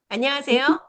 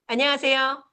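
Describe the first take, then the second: The two takes are said the same way.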